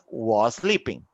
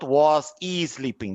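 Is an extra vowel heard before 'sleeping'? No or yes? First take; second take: no; yes. First: The s sounds link directly without an extra vowel. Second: An extra vowel is inserted before 'sleeping'. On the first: The speaker calls it right. "It's just was sleeping" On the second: The speaker calls it wrong. "It's not was e sleeping"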